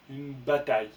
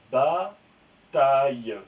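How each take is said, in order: First: Said in the usual way. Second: Bataille très lent et fort; mot étiré. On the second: Shown as a demonstration. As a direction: allonger Bataille pour la classe. (Bataille lu très lentement et fort)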